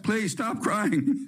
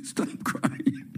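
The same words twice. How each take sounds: First: Slow, higher pleading plea; mock pleading politician. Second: Laughing mock plea. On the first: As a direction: beg them like a cornered congressman, drawn out. Politicians begging crying mothers. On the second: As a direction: repeat the plea through a laugh. Repeats plea while laughing.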